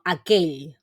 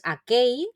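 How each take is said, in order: First: "aquell" said slowly, ending in a palatal ll; correct Catalan ll. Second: "aquell" said as "akei", ending in an i glide; practice version with an i sound. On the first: Teacher to students, modelling the correct ll ending slowly. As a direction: finish "aquell" with a clear Catalan ll sound, slowly. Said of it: "sino aquell". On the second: Teacher to Spanish-speaking students, showing the easier i ending. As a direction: soften the final ll of "aquell" into an i, as a learner's step. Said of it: "Aunque no es la pronunciación correcta". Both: Shown as a demonstration.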